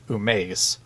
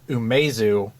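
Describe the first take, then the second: First: The name ends without a final u vowel. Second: The name ends with a pronounced u vowel. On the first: The speaker calls it right. "It's actually Umeis. You don't say the U" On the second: The speaker calls it wrong. "I've always pronounced it Umezu"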